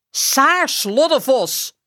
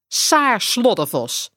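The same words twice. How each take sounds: First: Roepende moeder. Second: Moeder die berispt. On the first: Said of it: "roept ze". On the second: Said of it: "zegt ze". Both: A narrator's reading.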